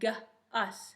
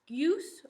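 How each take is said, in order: First: The vowel is a short uh sound. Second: The vowel is a long oo sound. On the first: The speaker calls it right. "or its sound? ... It's saying its sound, right?" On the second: The speaker calls it wrong. "Is it saying its own name"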